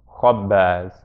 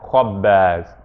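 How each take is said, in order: First: The vowel after kh sounds like a back ah. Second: The same.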